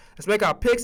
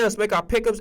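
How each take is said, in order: First: "picks" said cleanly as one short syllable; corrected picks. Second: "pick'ems" said as one run-together word; slurred pick'ems. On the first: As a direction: correct yourself, saying just "picks". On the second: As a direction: let "pick'ems" slip out in place of "picks". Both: Shown as a demonstration. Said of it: "and I said pick'ems".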